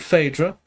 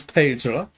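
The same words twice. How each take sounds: First: Phaedra said FAY-dra. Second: Phaedra said PAY-dra with a breathy P. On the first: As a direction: Phaedra as FAY-druh, F not P. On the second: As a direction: start Phaedra on a puffed P sound, not F. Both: Shown as a demonstration. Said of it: "or f-, is that Phaedra?".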